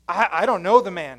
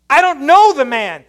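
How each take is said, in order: First: Said in the usual way. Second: Louder, higher, insistent denial; heated denial. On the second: Retold or imitated. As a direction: push him away with the denial. Peter's second, heated denial.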